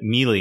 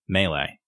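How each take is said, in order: First: It sounds like the worm name 'mealy'. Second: It does not sound like the word 'mealy'. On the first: The speaker calls it wrong. "people will say melee, ... melee is a worm, not a combat term" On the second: The speaker calls it right. "have the word pronounced appropriately"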